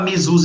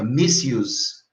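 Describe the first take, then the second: First: The ending does not sound like 'use'. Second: The ending sounds like the word 'use'. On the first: The speaker calls it wrong. "Não vai falar misuse não" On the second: The speaker calls it right. "em inglês se fala use, é a pronúncia, o prefixo é mis, aí fica misuse"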